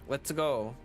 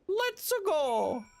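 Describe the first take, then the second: First: It is said in a less Mario-like voice. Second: It is said in a Mario impression.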